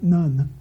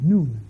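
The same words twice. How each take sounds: First: The name has an English-style pronunciation. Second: The name has its Hebrew pronunciation. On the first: The speaker calls it wrong. "not Nun" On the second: The speaker calls it right. "Amir said it's Nun in Hebrew"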